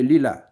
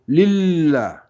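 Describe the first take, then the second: First: The L sound is short, said once. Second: The L sound is doubled and held longer. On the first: The speaker calls it wrong. "if we don't know, we're going to say lila" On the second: The speaker calls it right. "you should say lillah"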